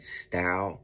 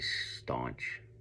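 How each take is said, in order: First: The name sounds like 'stow', with no n. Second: The name sounds like 'staunch', with an n. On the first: This is how someone else says the name. "she's pronouncing it Stow" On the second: This is how the speaker chooses to say the name. "I'm still gonna say staunch"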